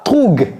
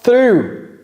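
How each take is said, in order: First: The word ends with a hard g sound. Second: The word ends without any g sound. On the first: The speaker calls it wrong. "c'est pas troug. Le G H ne se prononce pas" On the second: The speaker calls it right. "Le G H ne se prononce pas"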